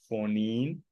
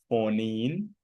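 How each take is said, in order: Both takes have the same delivery.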